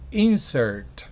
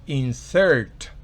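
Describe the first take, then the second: First: The stress is on the first syllable. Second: The stress is on the last syllable. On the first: It is a noun. "Si es sustantivo" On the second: It is a verb. "si es un verbo"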